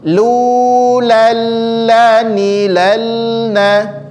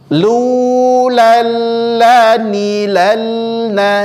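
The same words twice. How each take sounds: No difference in how they are said.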